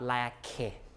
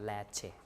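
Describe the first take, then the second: First: The middle consonant is a hard k sound. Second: The middle consonant is a palatalized ch sound. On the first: The speaker calls it wrong. "Not la ke" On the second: The speaker calls it right. "but la che ... has to be palatalized"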